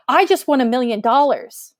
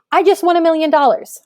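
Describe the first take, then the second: First: Said in the usual way. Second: Higher, louder and fast, bursting with excitement; excited exclamation. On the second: Shown as a demonstration. Teacher reading an exclamatory example to students, excited. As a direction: blurt it out like you just won. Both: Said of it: "I'm super excited here".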